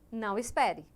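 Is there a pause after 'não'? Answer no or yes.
no. The words run together without a pause. The listener is told not to wait.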